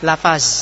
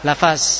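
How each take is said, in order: The two takes are said the same way.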